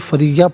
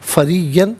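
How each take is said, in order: First: The word ends with a long 'a' vowel. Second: The word ends with an 'an' sound. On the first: The reader stops at this word. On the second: The reading continues without a stop.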